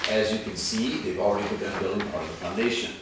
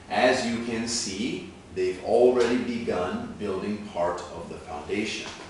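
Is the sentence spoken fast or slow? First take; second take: fast; slow. First: The sentence is spoken quickly at natural speed. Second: The sentence is spoken slowly and carefully. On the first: "when we speed it up at more natural speed" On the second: "again slowly"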